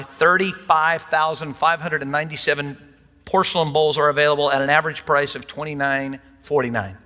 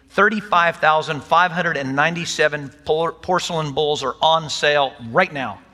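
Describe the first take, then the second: First: Light mock sales pitch; infomercial voice. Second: Said in the usual way. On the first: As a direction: read it like a TV ad, lightly. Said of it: "Does that not sound like an infomercial". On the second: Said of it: "sound like an infomercial".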